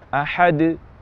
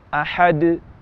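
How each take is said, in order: Both takes have the same delivery.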